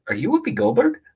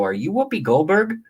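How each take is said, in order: First: High, mocking rise on Whoopi; sarcastic. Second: Said in the usual way. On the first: Comic recalls sarcastically greeting Whoopi at a bar, mocking high lilt. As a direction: ask it as if it's obviously a dumb question. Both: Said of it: "Sarcastically, like".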